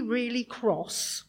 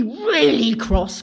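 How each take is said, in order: First: Said in the usual way. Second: "really, cross" lancé fort et appuyé, bien plus fort, lent; stress on really cross. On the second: Shown as a demonstration. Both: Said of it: "really, really cross".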